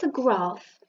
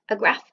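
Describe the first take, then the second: First: It is said in a southern English accent. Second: It is said in a northern English accent.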